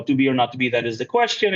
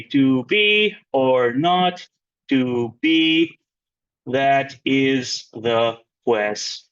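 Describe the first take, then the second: First: Said in the usual way. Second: "to BE or NOT to BE", slow, each stressed syllable drawn out; scanned syllable by syllable. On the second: Shown as a demonstration. Teacher showing iambic stress to class, slow exaggerated scansion of "to BE or NOT to BE". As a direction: beat out "that IS the QUES-tion" slowly, pausing between feet. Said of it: "indicates an unstressed syllable".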